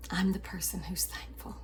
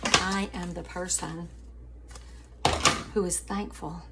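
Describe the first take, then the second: First: Whispered, private and intense. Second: Said in the usual way. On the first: Shown as a demonstration. Telling the family she is thankful, in a whisper. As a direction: breathe it out like a secret vow.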